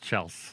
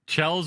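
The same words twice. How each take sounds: First: The name ends with a hissing s sound. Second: The name ends with a buzzing z sound. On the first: The speaker calls it right. "It's Chels" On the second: The speaker calls it wrong. "with a Z is not the right way"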